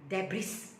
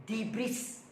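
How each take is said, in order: The two takes are said the same way.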